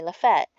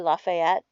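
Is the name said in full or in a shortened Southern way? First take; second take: shortened Southern; full. First: The name is clipped in a Southern local way. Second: The name is said in full, all syllables.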